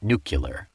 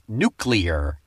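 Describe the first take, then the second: First: It is said as nu-cu-lar. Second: It is said as nu-clee-ar. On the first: The speaker calls it wrong. "not nuclear. George Bush" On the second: The speaker calls it right. "It's also pronounced nuclear"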